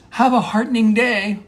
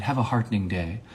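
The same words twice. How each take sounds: First: High, bright mock send-off; rousing farewell. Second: Softer, understated sincere farewell. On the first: Monologist trying out a new goodbye, rousing and high. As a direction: sing it out, pitched way up. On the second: Pretend. Monologist trying a goodbye for a serious moment, sincere and soft. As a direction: say it quietly, as if you mean it. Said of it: "That one's kind of sincere".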